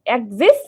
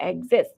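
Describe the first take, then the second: First: এক্সিস ending in a short "-sis"; singular -is ending. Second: এক্সিস said as "axes", ending "-ses"; plural -es ending. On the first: Teacher gives students the singular, এক্সিস ending in "-is". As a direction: say এক্সিস with a short i in the last syllable. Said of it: "শেষে যদি আইএস থাকে". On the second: Teacher turns singular into plural, এক্সিস ending in "-es". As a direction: open the last vowel of এক্সিস to e. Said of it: "আইএসটাকে তুমি ইএস করে দাও". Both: Shown as a demonstration.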